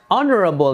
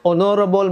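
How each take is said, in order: First: The stress is on the first syllable. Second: The stress is not on the first syllable. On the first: The speaker calls it right. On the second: The speaker calls it wrong.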